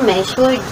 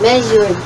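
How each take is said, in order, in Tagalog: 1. Ang gitnang katinig ay simpleng tunog s. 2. Ang gitnang katinig ay may boses na tunog z. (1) "hindi mo na kailangang bigkasin yung letter Z na yan" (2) "Kaya magiging letter Z yan"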